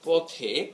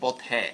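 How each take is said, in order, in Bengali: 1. শেষের স্বরধ্বনিটি বদ্ধ 'e'। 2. শেষের স্বরধ্বনিটি মুক্ত 'ae' ধ্বনি। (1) "ধরো পথে" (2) "এভাবে উচ্চারণ করো না"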